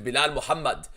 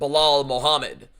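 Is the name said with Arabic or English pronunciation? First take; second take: Arabic; English. First: The name is said with Arabic pronunciation. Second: The name is said with English pronunciation. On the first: The speaker calls it right. "in Arabic" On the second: The speaker calls it wrong.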